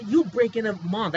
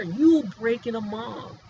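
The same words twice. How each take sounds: First: YOU stressed, higher and louder; a heated, pointed claim; plain emphatic. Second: YOU pressed hard, whole line slowed; the same claim, dragged out for weight; slower, weighted. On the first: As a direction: jab at you, then state the rest. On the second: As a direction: lean on every word slowly. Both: Real, not acted.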